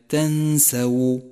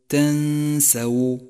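The two takes are said the same way.

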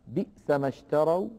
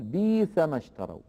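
First: The first word has a glottal stop after its vowel. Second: The first word has a long i vowel, no glottal stop. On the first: This is not the reading of Warsh. "كقوله تعالى بئس ما اشتروا" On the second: This is the reading of Warsh. "فورش يقول بيس ما اشتروا"

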